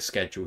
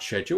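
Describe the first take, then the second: First: Schedule is said with an American 'sked' sound. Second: Schedule is said with a British 'shed' sound.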